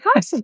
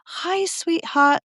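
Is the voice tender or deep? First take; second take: deep; tender. First: It is said in a deep, puffed-up voice. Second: It is said in a soft, tender voice.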